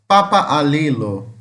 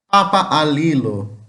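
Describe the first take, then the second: No difference in how they are said.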